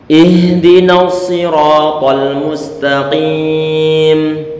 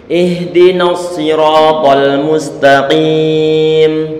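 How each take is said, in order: The two takes are said the same way.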